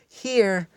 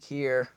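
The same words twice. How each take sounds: First: It is said in a higher-pitched, chirpy voice. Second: It is said in a normal voice.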